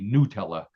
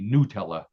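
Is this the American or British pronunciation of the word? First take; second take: American; American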